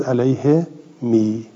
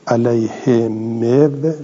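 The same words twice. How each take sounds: First: Slow "علیه می" ending in long "mi"; waw turned ya. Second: Slow "علیه مو" with a sounded waw, "alayhe mev"; original waw form. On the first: Teacher showing the changed form, "علیه می" slowly as "alayhe mi". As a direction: draw out the final i of "علیه می". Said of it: "واوم یا شد". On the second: Teacher showing the form before change, "علیه مو" slowly as "alayhe mev". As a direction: draw out "علیه مو", closing on a v sound. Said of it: "علیه مو شد علیه می". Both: Shown as a demonstration.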